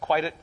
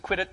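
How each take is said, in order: First: The vowel is long, like in 'bite'. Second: The vowel is short, like in 'bit'. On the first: The speaker calls it right. "but it's quieted" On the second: The speaker calls it wrong. "I used to think it's quitted"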